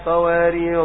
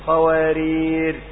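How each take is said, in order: First: The word ends with a long 'a' vowel. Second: The word ends with the consonant 'r'. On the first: "إن وقفت على الأولى تقول كانت قوارير" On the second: "وقفت على الثانية قوارير"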